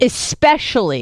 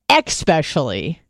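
First: It begins with a plain 'es' sound. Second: It begins with an 'ex' sound, like 'expecially'. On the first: The speaker calls it right. "but especially" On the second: The speaker calls it wrong. "not especially"

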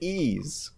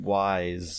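First: The name starts with a vowel sound. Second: The name starts with a W sound. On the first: "So that's how you say it" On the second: "I've always called them Wise"

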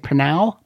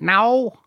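First: The word starts with an audible P sound. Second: The word starts with an N sound, no P. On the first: "Would you say Pnau?" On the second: "Is the P silent? Is it now?"

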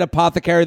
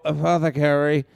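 First: The word is said at normal, full volume. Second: The word is said more softly and quietly. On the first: The speaker is saying it without worrying about it. "I said apothecary the first time" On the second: The speaker is unsure whether the pronunciation is right. "so you say it softer the second time"

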